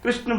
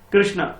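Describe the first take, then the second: First: The name ends without the final 'aa' vowel. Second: The name ends with a long 'aa' vowel. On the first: The speaker calls it wrong. "आ की मात्रा मैंने नहीं लगाया" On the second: The speaker calls it right. "बोलना कृष्णा था"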